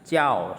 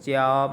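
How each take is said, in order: First: The syllable has a sharply falling tone. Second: The syllable has a high level tone. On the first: It is part of the noun meaning teacher. "itu nada empat" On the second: It is the verb meaning to teach. "Kalau untuk kata kerjanya dibaca nada satu"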